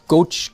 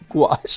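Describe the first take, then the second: First: The word sounds like 'gosh'. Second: The word rhymes with 'squash'. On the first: The speaker calls it wrong. "Not goch" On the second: The speaker calls it right. "just like squash, but gouache"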